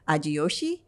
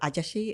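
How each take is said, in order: First: The middle is stretched into a 'jiyo' sound. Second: The middle is said as a short 'ja' sound.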